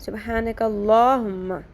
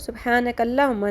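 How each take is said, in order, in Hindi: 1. L के बाद वाली स्वर-ध्वनि लंबी है। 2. L के बाद वाली स्वर-ध्वनि छोटी है। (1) "लाम खड़ी ज़बर ला" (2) "सुबहानकल्लाहुम्मा नहीं है"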